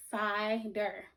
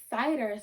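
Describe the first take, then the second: First: "cider" split in two, pause before "der"; broken in half. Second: Said in the usual way. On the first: Shown as a demonstration. Teacher breaking a word for pupils, syllable by syllable. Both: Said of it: "if I break it in half".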